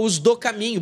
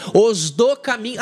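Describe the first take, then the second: First: Said in the usual way. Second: "os do caminho" spoken slowly and louder, each word weighted; slow emphatic quote. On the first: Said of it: "Ah, tá lá o pessoal". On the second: Shown as a demonstration. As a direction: lay out "os do caminho" deliberately, like reading scripture. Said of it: "Como diz o capítulo quatro de Atos dos Apóstolos".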